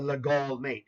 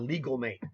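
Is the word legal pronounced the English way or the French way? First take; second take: French; English. First: Legal is said the French way. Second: Legal is said as the English word. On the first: The speaker calls it right. "That was a French man's name" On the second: The speaker calls it wrong. "if you're an English-speaking person first and not a French speaker first"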